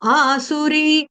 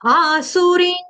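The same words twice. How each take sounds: First: The final vowel is plain, with no nasal sound. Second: The final vowel carries a nasal sound. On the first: The speaker calls it wrong. "इधर बिंदी का उच्चारण मैंने नहीं किया" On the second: The speaker calls it right. "मुझे बिंदी का उच्चारण करना है"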